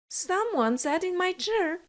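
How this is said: It is said in an average voice.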